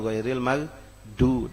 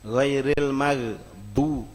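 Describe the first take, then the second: First: The last consonant is a d sound. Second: The last consonant is not a d sound. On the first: The speaker calls it right. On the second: The speaker calls it wrong.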